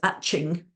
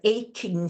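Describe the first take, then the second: First: The middle consonant is a ch sound. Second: The middle consonant is a hard k sound. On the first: The speaker calls it wrong. "students might say it's atching" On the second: The speaker calls it right. "a word like aching"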